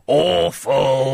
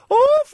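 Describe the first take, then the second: First: It is said in a croaky voice. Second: It is said in a higher-pitched voice.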